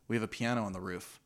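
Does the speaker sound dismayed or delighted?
dismayed. The tone sounds dismayed and complaining. Having the piano there is a problem. "she could have said"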